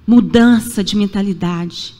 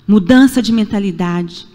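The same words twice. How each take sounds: The two takes are said the same way.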